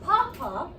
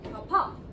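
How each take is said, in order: First: The stress is on the first syllable. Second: The stress is on the last syllable. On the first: The speaker calls it wrong. "Not papa" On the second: The speaker calls it right. "but papa, with the accent over the A"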